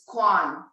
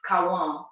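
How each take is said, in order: First: The name is said as one syllable. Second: The name is said as two syllables. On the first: This is how it was said in the States. "when I was in the States, it was Quan" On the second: This is how it is said in Portuguese. "in Portuguese, it's Cauã"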